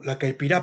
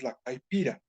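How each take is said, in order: First: Caipirá stressed on its last syllable, the A; accent on final A. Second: Said in the usual way. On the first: Shown as a demonstration. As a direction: correct it to caipirá, rising onto the final A. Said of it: "la caipirá con acento en la A". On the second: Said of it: "perdón, la caipirá con acento en la A".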